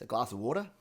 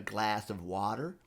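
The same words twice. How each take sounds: First: It is said in an Australian accent. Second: It is said in an American accent. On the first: Listeners did not understand the request. The speaker calls it wrong. "in Australia we tend to say water" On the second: Listeners understood the request. The speaker calls it right. "I threw an American accent"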